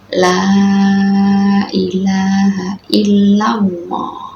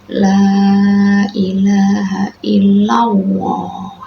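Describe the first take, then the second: First: The L in Allah is said thick. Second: The L in Allah has a w-like sound. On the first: The speaker calls it right. "yang benar ... dibaca tebal" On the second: The speaker calls it wrong. "seakan-akan itu pakai wawu ya"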